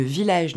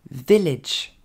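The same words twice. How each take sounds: First: Final VILLAGE as "vee-LAYDGE"; wrong pronunciation. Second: VILLAGE as "VEL-edge", first syllable louder; correct English pronunciation. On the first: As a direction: say VILLAGE with a long "aydge" ending. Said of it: "ne se dira pas". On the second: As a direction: punch VEL, short falling "edge" in VILLAGE. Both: Shown as a demonstration.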